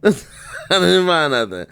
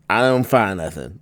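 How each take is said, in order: First: Laughing through the words. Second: Said in the usual way. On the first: Real, not acted. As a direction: chuckle it out, amused. Repeats it while laughing.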